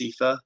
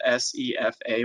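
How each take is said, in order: First: It is said as a single word. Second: It is spelled out as separate letters. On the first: "typically pronounced" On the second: "often called"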